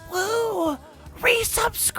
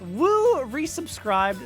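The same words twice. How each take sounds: First: It is said in a harsh metal-style voice. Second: It is said in a plain reading voice.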